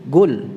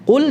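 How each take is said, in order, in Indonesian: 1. Kata ini diawali dengan bunyi 'g'. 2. Kata ini diawali dengan bunyi 'q' yang tebal. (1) "qaf yang dibaca dengan g"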